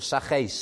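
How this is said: The name is pronounced the Welsh way.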